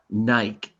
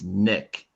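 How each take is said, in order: First: The vowel is long, like in 'bike'. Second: The vowel is short, like in 'sit'. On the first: The speaker calls it wrong. "This is not Nike" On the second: The speaker calls it right. "All of these words have short vowels"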